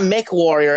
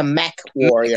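First: "Mech" said as "mick"; mispronounced Mech. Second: "Mech" said as "meck"; corrected Mech. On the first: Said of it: "It's not Mech Warrior". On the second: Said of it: "it's a Mech Warrior". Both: Shown as a demonstration.

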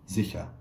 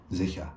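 The two takes are said the same way.

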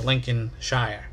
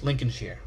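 First: Lincolnshire spelled out slowly, ending in "shire" like "shy-er"; Lincolnshire as he thought. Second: Lincolnshire with a short "sheer" ending; Lincolnshire English way. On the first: Showing the wrong way he once said the county, in a slow "shy-er" ending. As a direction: stretch out Lincolnshire with a full "shire". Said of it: "I always thought it was pronounced". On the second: Giving the English way to say the county, with a short "sheer" ending. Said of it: "but in England". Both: Shown as a demonstration.

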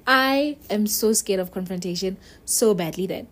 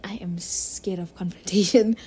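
First: Said in the usual way. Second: Hushed, breathy confession to the viewer; whisper. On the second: Real, not acted. She whispers her fear of confrontation to viewers. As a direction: whisper it like a guilty secret.

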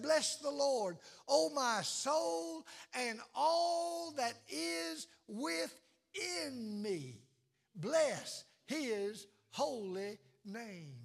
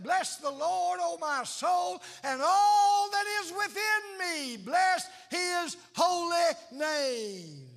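First: Slow, stretched, sinking reverent blessing; drawn-out praise. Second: High, loud, shouted blessing; excited shout of praise. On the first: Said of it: "That you said". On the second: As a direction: burst out in joy, shouting it to God. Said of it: "so excited that you just said". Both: Pretend.

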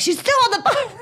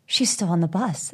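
First: Very high, squealed mock panic; frantic, high-pitched overreaction; retold freak-out. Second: Said in the usual way. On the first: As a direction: shriek it as a comic replay of your panic. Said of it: "It's like this whole freak out". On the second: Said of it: "And Dan's like".

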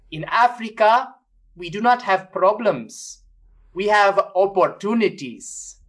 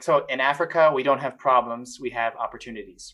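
First: Put-on slow, higher African accent, each word weighed; imitating an African bishop's accent at the mic, slowly. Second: Said in the usual way. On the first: Retelling a bishop's speech at the Vatican in an African accent. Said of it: "Was that accent really African?". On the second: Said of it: "repeats the quote plainly".

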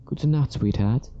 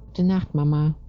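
First: Lightly voiced mother, lifted in pitch; a touch of a mother's higher-pitched goodnight; fond mother. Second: Put-on high-pitched child voice; little girl. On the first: Mother kissing her daughter goodnight, lightly voiced higher. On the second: Little girl saying goodnight to Mama, high child voice. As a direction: say it as a small girl, pitched well up. Small girl answers her mother. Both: A narrator's reading.

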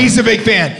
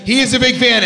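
First: Said in the usual way. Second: "He" stressed and raised. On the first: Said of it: "she goes". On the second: Retold or imitated. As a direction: punch "He" in "He is a big fan". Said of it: "she emphasized he in the second reiteration".

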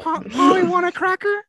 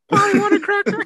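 First: High squawky parrot voice, loud. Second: High loud squawking parrot. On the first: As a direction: squawk it like a talking bird. Imitating a parrot. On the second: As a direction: screech it like a parrot. Imitating a parrot again. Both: Pretend.

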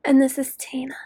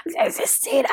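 First: Softer whisper. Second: A hoarse, airless whisper like a damaged throat; raspy whisper. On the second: Host mimicking an anti-smoking ad, raspy whisper. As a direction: croak the name out in a whisper. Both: Pretend. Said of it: "I sound like one of those anti-smoking commercials".

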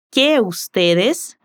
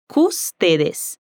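First: "que ustedes" said slowly, each vowel kept apart; separate vowels. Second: "custedes" with the vowels of que and ustedes fused into one; vowels merged. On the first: Teacher showing the standard form: "que ustedes" slowly, word by word. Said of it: "En vez de decir". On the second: Teacher imitating the waiter: "custedes" with the vowels run together. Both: Shown as a demonstration.

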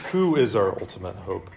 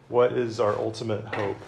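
First: "Who" leaned on, pitch dropping a little; stress on who. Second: "What" leaned on, falling at the end; stress on what. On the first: Preacher to students, now weighing "Who". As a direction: punch "Who" to answer the last question. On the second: Preacher to students, weighing "What". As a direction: hit "What" hardest, the rest trailing down. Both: Shown as a demonstration. Two parallel questions, stressed word.

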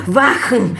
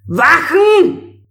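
First: Shouted command. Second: High, loud command shout; forceful call. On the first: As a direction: yell the order. Emperor orders guards again. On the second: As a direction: bark the order across the hall. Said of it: "rief Ming mit kräftiger Stimme". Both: A narrator's reading.

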